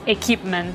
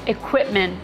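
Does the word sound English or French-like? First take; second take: French-like; English. First: The word is said in a French-sounding way. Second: The word is said in a plain English way. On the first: The speaker calls it wrong. "not equipment. ... we're not French" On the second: The speaker calls it right. "it's equipment"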